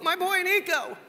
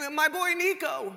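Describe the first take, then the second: First: Proud mother in a mock Jewish accent, pitched high; attempted Jewish accent. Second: Proud Jewish mother, high and drawn out; badly faked Jewish accent, slow and high; attempted Jewish accent. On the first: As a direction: gush in a badly faked Jewish accent. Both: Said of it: "I can't do the Jewish accent well".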